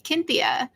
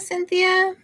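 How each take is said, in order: First: The name begins with a K sound. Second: The name begins with an S sound.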